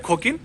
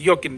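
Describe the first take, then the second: First: It begins with a rough kh sound. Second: It begins with a y sound. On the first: The speaker calls it wrong. "अगर आप खोता का साउंड ख या है ले रहे हो" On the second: The speaker calls it right. "इसको योकिन बोला जाता है"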